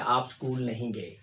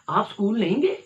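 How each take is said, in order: First: It is said as a plain factual statement. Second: It is said with surprise and anger.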